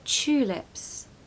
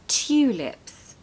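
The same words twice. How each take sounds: First: The word begins with a ch sound. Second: The word begins with a clear t sound. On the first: The speaker calls it right. "It's more of a C H sound" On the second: The speaker calls it wrong. "the pronunciation is not tulips"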